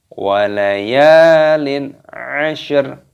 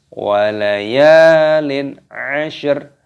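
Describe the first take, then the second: The two takes are said the same way.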